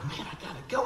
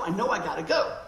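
First: Said in the usual way. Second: Louder, pressing repeat on go; rising urgency on I gotta go; insistent. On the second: Retold or imitated. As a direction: push the go, more urgent on the repeat. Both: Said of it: "And I go".

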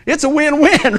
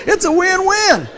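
First: Said in the usual way. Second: It's a win-win higher and slower; stretched win-win. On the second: Shown as a demonstration. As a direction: draw out win-win for emphasis.

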